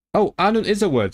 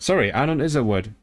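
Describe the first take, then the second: First: Much higher, excited realisation; real surprise at finding the word; surprised discovery. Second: Said in the usual way. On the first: Real, not acted. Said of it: "Oh, shit".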